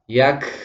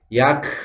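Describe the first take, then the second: No difference in how they are said.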